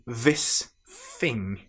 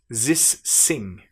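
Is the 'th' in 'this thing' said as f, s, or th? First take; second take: f; s. First: The th sounds are replaced by v and f sounds. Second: The th sounds are replaced by z and s sounds. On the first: "they will change these two sounds to become v and f" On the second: "a French person who's learning English might pronounce"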